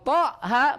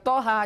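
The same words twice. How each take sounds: First: The final vowel is drawn out very long. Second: The final vowel is kept short. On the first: The speaker calls it wrong. "panjangnya enam harokat" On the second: The speaker calls it right. "hanya dua harokat saja"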